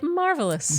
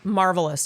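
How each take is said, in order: First: The word is said expressively and drawn out. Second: The word is said flatly and quickly. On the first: The speaker calls it right. "it deserves like marvelous" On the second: The speaker calls it wrong. "You can't say it like that"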